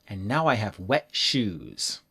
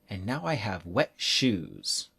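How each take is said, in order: No difference in how they are said.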